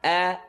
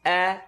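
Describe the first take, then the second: First: The vowel is an open, unrounded a sound. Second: The vowel is an open, unrounded a sound.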